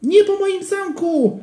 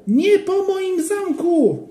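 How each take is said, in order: First: Put-on high, slow wailing child; desperate child cry. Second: Put-on high, very slow, stretched child's cry; even more desperate wail. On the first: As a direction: wail to protect your castle. (wysoki, rozpaczliwy krzyk dziecka) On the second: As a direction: drag the wail out in despair. (bardzo przeciągły, płaczliwy krzyk) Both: A narrator's reading. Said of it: "krzyknął Joachim".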